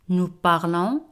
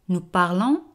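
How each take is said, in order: Both takes have the same delivery.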